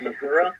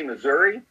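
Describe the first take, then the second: First: It is said in the regional way. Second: It is said in the standard way. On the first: This is how some locals say it. "I'm not sure why rednecks call it Missouri" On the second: This is how it is supposed to be said. "it's supposed to be Missouri"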